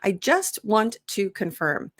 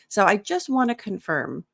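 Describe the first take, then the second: First: Each word is said fully and carefully. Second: "Want to" is blended into "wanna." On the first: The speaker calls it wrong. "when I'm saying it like super correctly" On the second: The speaker calls it right. "we'll use the informal contraction wanna"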